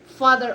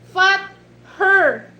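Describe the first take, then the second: First: It is said as the single word 'father'. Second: It is said like two words, 'fought her'. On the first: The speaker calls it right. "she said, father" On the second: The speaker calls it wrong. "he pronounced it, fought her"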